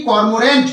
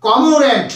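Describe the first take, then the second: First: কর্মরেন্ট with the r sounded, kor-mo-rent; wrong pronunciation. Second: কমোরেন্ট with a silent r, ko-mo-rent; correct pronunciation. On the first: Teacher showing students the wrong way: কর্মরেন্ট with r sounded. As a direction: sound the r in কর্মরেন্ট as the mistake to avoid. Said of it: "উচ্চারণটা কর্মরেন্ট হবে না". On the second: Teacher giving students the right way: কমোরেন্ট with silent r. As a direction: drop the r and say কমোরেন্ট cleanly. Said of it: "উচ্চারণটা কি হবে?". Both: Shown as a demonstration.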